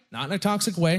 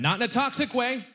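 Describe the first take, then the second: First: Said in the usual way. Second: Higher, hasty correction; quick higher clarification. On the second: Acted. Comic correcting himself to the crowd, higher and hurried. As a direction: jump up to set the record straight.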